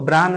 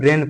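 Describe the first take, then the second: First: The vowel sounds like 'ah'. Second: The vowel sounds like 'ay'. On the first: The speaker calls it wrong. "इसको ब्रान नहीं पढ़िएगा" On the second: The speaker calls it right. "इसको ब्रेन पढ़िएगा"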